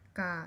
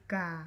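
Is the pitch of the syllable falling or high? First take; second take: falling; falling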